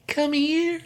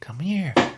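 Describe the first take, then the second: First: It is said in a high, seductive voice. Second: It is said in a normal voice.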